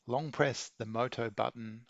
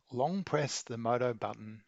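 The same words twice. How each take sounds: The two takes are said the same way.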